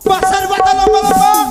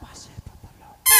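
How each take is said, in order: First: It is said very loudly. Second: It is said very softly.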